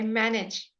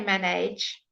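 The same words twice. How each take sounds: First: The second syllable has a short i sound. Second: The second syllable sounds like 'age'. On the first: The speaker calls it right. "we say manage" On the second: The speaker calls it wrong. "We don't say manage"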